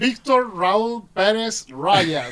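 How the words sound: The name is pronounced with English sounds. "I got used to pronounce it like in the English version"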